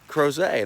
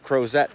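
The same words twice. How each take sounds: First: The name is said with a French pronunciation. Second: The name is said with an English pronunciation. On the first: The speaker calls it right. "They referred to it as Crozet. ... so that's how you say it" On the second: The speaker calls it wrong. "for some time, I thought it was the Crozet Tunnel"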